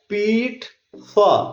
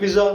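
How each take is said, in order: First: The middle consonant is a voiceless 'ts' sound. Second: The middle consonant is a voiced 'dz' sound. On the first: The speaker calls it right. "ये word क्या है? पीट्सा" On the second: The speaker calls it wrong. "पिज्जा नहीं no! है, जी का word नहीं है"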